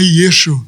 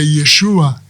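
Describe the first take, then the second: First: The name ends on an 'oo' sound. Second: The name ends on an 'ah' sound. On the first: The name is shortened to mark the person as cursed. The speaker calls it wrong. "o nome dele não é" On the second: The name is given in its full form. The speaker calls it right. "o nome dele é"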